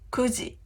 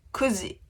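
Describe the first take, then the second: First: The first syllable is a short ku. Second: The first syllable is a short ku.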